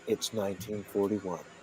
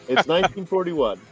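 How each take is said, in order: First: The line is read slowly and deliberately. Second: The line is read at a normal pace.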